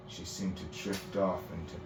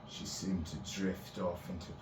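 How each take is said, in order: Both takes have the same delivery.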